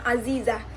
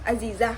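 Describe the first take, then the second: First: It is said with an Arabic accent. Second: It is said with a local Minang accent. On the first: This is how it is said in Arabic. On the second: This is how people around her call her. "orang manggilnya"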